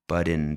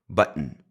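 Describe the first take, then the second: First: The middle t is a tongue tap. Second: The middle t is a catch in the throat. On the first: The speaker calls it wrong. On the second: The speaker calls it right.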